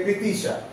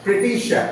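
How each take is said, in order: First: "প্রীতিশা" with a soft dental t; everyday Bengali pronunciation. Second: "প্রীতিশা" with a hard English t; British-style pronunciation. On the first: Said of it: "আমরা যদি বলি যে". ("প্রীতিশা" সাধারণ বাঙালি উচ্চারণে) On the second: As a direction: say "প্রীতিশা" as an English speaker would, t on the ridge. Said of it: "এরকম ভাবে বলতে হবে". ("প্রীতিশা" ব্রিটিশদের মতো ট-ধ্বনিতে) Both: Shown as a demonstration.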